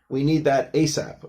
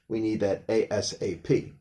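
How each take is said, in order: First: ASAP is said as a single word. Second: ASAP is said letter by letter. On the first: "they started pronouncing ASAP" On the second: "you could still use it as"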